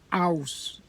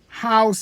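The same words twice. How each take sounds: First: The word begins without an h sound. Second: The word begins with an h sound.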